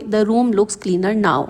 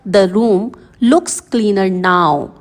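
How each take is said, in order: First: The words are said evenly without extra emphasis. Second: Certain key words are pressed with extra emphasis. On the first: "एक normal वे में" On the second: "जो bold में words हैं इन पर press डालें"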